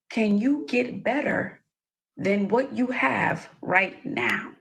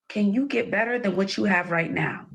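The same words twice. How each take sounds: First: It is said slowly. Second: It is said at normal speed.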